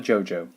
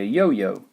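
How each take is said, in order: First: It begins with an English J sound. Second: It begins with a Y sound. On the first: The speaker calls it wrong. "not a jojo. That would just be silly" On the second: The speaker calls it right. "the J is a y sound"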